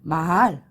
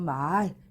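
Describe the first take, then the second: First: The vowel is said short. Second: The vowel is said long. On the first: It means a horse that you ride. "요거는 짧게 발음하고" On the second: It means words that people speak. "이것은 길게 발음하니까"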